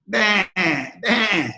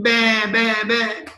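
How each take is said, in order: First: Bleating like a sheep. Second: Lion cub copying the sheep's bleat; cub trying to bleat. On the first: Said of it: "So how do the sheep talk?". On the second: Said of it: "So the lion started thinking". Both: Retold or imitated.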